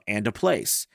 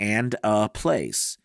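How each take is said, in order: First: The words are joined quickly together. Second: The words are said separately, not joined.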